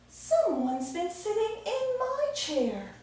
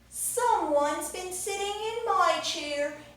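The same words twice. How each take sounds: First: It is said in a mommy bear voice. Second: It is said in a baby bear voice.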